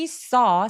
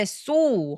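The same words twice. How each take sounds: First: The vowel is an open 'aw' sound. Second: The vowel is a closed 'oh' sound. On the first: It means saw, the past of see. The speaker calls it right. "턱을 길게 벌려야 돼요" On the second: It sounds like the word meaning to stitch. The speaker calls it wrong. "saw 하면 안 돼요"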